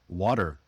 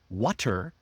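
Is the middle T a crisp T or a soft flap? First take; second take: flap; crisp. First: The middle T is a soft flap. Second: The middle T is a crisp T.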